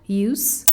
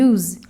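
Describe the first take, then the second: First: The middle consonant is a hissing S sound. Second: The middle consonant is a buzzing Z sound. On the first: It is used as a noun. "Os sons de S no meio de sons de vogais em house, episode, use, quando substantivo" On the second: It is used as a verb. "S com som de Z em use, quando verbo"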